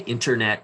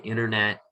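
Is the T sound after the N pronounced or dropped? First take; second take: pronounced; dropped. First: The T sound after the N is pronounced. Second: The T after the N is dropped, American-style.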